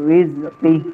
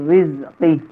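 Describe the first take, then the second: Both takes have the same delivery.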